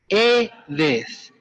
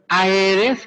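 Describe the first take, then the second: First: It begins with a single e vowel sound. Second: It begins with two separate vowel sounds, a-e. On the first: The speaker calls it right. "Tienen que pronunciarlo bien. Edes" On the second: The speaker calls it wrong. "Cada vez que yo escucho Aedes, créanme que me brota un hilito de sangre del oído"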